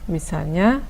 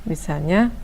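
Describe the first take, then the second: Both takes have the same delivery.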